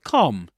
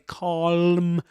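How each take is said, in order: First: The L sound is silent in the word. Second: The L sound is pronounced in the word. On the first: The speaker calls it right. "but calm" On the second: The speaker calls it wrong. "you don't pronounce the the L consonant, you don't say calm"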